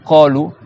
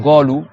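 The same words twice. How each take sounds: First: Q rather than g opening qolou; qaf in qolou. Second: Golou with g for qaf; hard g opening qalou; dialect g in golou. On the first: Teacher contrasts with golou, demonstrating the proper qaf. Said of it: "ils vont dire kolou". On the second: Teacher shows a valid variant, demonstrating g for qaf. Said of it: "tu dis par exemple". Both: Shown as a demonstration.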